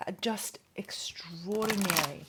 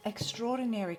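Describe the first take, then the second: First: Whispered. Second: Said in the usual way. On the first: Real, not acted. Reader whispers Capricorn's energy to viewers, hushed whisper. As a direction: hush it like a secret.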